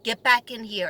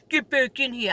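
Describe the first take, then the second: First: Said in the usual way. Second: Mimicked, exaggerated New York accent; mocking New York accent. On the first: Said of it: "then I said". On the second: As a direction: imitate a kid aping a New York accent. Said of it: "He made fun of my accent".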